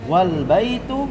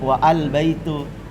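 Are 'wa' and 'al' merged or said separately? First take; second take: merged; separately. First: Wa runs straight into the l with no vowel. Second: The article's vowel is sounded separately after wa. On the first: The speaker calls it right. "tapi wal masjidu wal baitu" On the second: The speaker calls it wrong. "tidak pernah dibaca"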